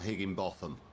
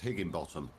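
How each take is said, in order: First: The ending sounds like 'botham' with a th. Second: The ending sounds like 'bottom'. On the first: The speaker calls it wrong. "not Higginbotham" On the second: The speaker calls it right. "that's pronounced Higginbottom"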